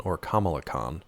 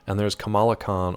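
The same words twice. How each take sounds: First: "Kamala" said KAH-ma-la, stress on the first syllable; the other version of "Kamala", stress on the first. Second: "Kamala" said ka-MAH-la, stress on the middle syllable; one version of "Kamala" stressing the middle. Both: Shown as a demonstration. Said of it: "I get their pronunciations confused".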